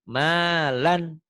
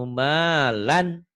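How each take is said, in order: Both takes have the same delivery.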